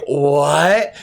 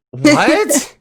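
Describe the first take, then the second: First: Said in the usual way. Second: High squeaky disbelieving what; baffled disbelief. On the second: Retold or imitated. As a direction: shoot it up high in shock. Half asleep, neighbor wants race.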